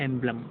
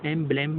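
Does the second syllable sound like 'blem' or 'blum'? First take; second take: blum; blem. First: The second syllable has a weak 'uh' vowel. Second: The second syllable has a clear 'eh' vowel. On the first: The speaker calls it right. "लेकिन यहाँ पर लिखा है एम्ब्लम" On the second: The speaker calls it wrong. "एम ब्लेम मैं पढ़ रहा हूँ"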